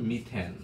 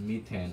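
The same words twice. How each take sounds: The two takes are said the same way.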